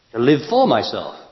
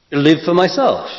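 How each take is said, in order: First: Said in the usual way. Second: Higher and louder, weight on myself; emphatic repeat. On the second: Shown as a demonstration. Teacher repeating the phrase louder to the audience. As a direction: drive the words home, stressing myself.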